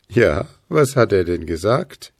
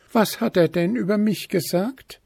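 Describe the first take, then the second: First: Low-voiced character, wanting to know; curious Puh. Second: High-pitched, testy elf maiden; snippy. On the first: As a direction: ask low, with real curiosity. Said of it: "wollte Puh jetzt wissen". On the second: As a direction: ask high and with a touch of bite. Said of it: "fragte das Wichtelfräulein bissig". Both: A narrator's reading.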